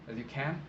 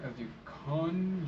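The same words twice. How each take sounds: First: Said in the usual way. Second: Slow "can" with the vowel of "con"; "can" mispronounced as a long, higher "cahn"; accented CAN. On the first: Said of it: "that's just a mispronunciation". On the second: Shown as a demonstration. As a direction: draw out "can" so it rhymes with "on". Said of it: "It's an accent right there".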